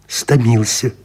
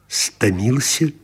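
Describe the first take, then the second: First: It is said as a statement, falling. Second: It is said as a question, rising. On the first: Stating that she is tired. "оповедальной" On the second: Asking whether she is tired. "пытальной"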